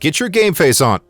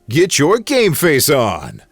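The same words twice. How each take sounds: First: The word endings are cut short and plain. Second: The word endings are drawn out like an announcer.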